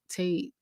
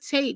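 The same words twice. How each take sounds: First: The name is said calmly and casually. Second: The name is called out with excitement. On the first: Someone is greeting him casually, not like a fan. "I definitely didn't really sound like a fan" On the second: A thrilled fan is greeting a celebrity. "I didn't say it like that"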